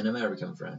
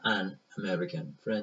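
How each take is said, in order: First: "an American friend" flowing with n carried over into "American"; linked. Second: Slow, separate words "an American friend". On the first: Teacher showing how natives link words. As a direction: run "an American friend" together. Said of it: "به جای اینکه بگم an American friend". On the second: Teacher contrasting the unlinked version with the linked one. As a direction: pause between "an" and "American". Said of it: "به جای اینکه بگم". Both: Shown as a demonstration.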